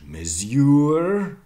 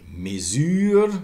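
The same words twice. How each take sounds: First: MESURE as "mez-YOOR", end stressed; Middle English pronunciation. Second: MESURE as "muh-ZÜR", end stressed; French pronunciation. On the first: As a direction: say mesure with z plus y, drawn out loud. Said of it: "Must have been in Middle English". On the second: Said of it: "Same in French". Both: Shown as a demonstration.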